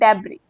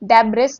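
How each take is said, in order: First: The word ends without an s sound. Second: The word ends with an s sound. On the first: The speaker calls it right. "इसमें एस silent है" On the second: The speaker calls it wrong. "डेब्रिस नहीं"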